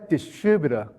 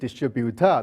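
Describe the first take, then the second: First: The stress is on the second syllable. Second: The stress is on the third syllable. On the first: "The U S distributor, the stress is the second syllable" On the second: "Malaysian distributor, the third one"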